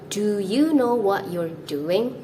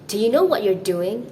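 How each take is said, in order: First: The first word 'do' has a full, long 'oo' vowel. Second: The first word 'do' has a short, weak 'uh' vowel. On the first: "Instead of" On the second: "you might also hear native speakers say this"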